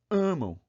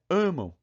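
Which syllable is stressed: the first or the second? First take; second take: first; first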